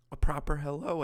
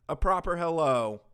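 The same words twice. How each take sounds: First: Said in the usual way. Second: "proper" hit louder and higher; stress on proper. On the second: Shown as a demonstration. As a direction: punch "proper" then fall on hello.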